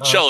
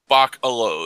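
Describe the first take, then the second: First: The ending sounds like 'cello'. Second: The ending sounds like 'alo'. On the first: "So cello" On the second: "So I was like Bach, like the, the composer"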